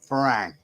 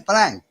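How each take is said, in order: First: The second consonant is an R sound. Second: The second consonant is an L sound. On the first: This is how educated, high-class speakers say it. "would be able to pronounce the R" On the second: This is how less educated speakers say it. "they say Falang with an L"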